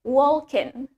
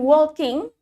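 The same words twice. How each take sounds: First: The final g sound is dropped. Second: The final g sound is pronounced. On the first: The speaker calls it right. "the G is usually silent in Irish accent" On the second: The speaker calls it wrong. "Bukan walking"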